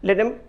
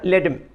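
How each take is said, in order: First: The word them is shortened to em. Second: The same.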